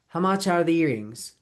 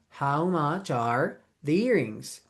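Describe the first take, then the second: First: The words run together with linked sounds. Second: Each word is said separately, without linking. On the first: "if you link those sounds" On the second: "If you say them word by word"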